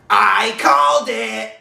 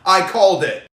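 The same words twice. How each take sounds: First: It is read in an imitated, put-on voice. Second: It is read in the reader's own normal voice. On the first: The speaker calls it right. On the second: The speaker calls it wrong.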